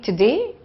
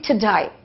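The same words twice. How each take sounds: First: The word ends with a plain 'day' sound. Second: The word ends sounding like 'die'.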